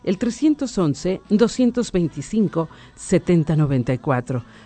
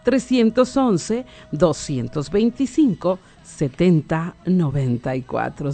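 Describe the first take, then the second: First: The number is said at a normal pace. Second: The number is said more slowly.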